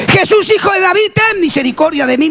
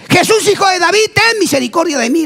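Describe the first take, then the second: First: High, insistent cry for mercy; defiant high-pitched calling out; acted insistent shout. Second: High-pitched calling out; acted shouting. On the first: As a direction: cry out over those hushing you. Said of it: "gritó más fuerte". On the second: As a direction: plead for mercy in a raised, high cry. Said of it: "le gritaba".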